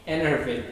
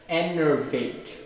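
First: It is said at normal speed. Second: It is said slowly.

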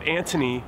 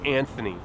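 First: The middle sound is a plain t. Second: The middle sound is a th. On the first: The speaker calls it wrong. "why do you pronounce it Anthony when there's an H in your name?" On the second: The speaker calls it right. "It should be Anthony"

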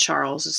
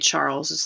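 First: The name is said with English sounds. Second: The same.

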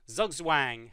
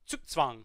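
First: The word begins with a plain z sound. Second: The word begins with a ts sound. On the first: The speaker calls it wrong. "if you're in English and you don't know how to pronounce it" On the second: The speaker calls it right. "the Z is pronounced like a T-S in English"

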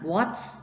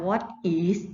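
First: It is said as one contracted word. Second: It is said as two separate full words. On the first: The speaker calls it right. "อันนี้อ่านว่า What's นะ" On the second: The speaker calls it wrong. "ไม่อ่านว่า What is"

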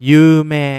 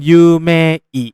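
First: The ending is said as one long vowel, 'mee'. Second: The ending is said as two vowels, 'may-ee'. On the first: The speaker calls it right. "แต่คนญี่ปุ่นออกเสียงจริงๆจะเป็นยูเม" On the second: The speaker calls it wrong. "เขาเขียนเป็นยูเมอิ"

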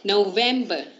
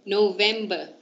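Both takes have the same delivery.

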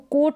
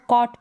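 First: The vowel is pronounced as a long 'oh'. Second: The vowel is pronounced as an open 'ah'. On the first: The speaker calls it wrong. "इसको कोट नहीं पढ़ सकते" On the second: The speaker calls it right. "इसको कॉट पढ़ेंगे"

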